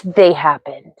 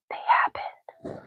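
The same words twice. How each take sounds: First: Said in the usual way. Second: Very soft conspiratorial whisper; whispered insistence. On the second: Real, not acted. Streamer insisting on false memories to chat, whispering. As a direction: whisper it as a secret aside. Repeats her claim as an aside.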